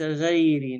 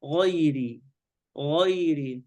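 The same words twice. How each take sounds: First: "غيري" with a light "ghe" opening; faulty demo, no heaviness in "غيري"; wrong thin ghayn. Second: "غيري" with dark ghay, raised tongue; careful emphatic opening on "غيري"; heavy ghayn. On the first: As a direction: flatten the gh of "غيري" to a front vowel. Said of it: "ليس غيري". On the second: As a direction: give "غيري" a full back gh. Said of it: "صفة استعلاء". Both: Shown as a demonstration.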